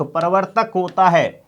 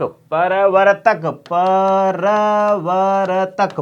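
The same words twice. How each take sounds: First: Said in the usual way. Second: प्रवर्तक drawn out very slowly; slow syllable demo. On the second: Shown as a demonstration. Teacher spelling प्रवर्तक aloud slowly.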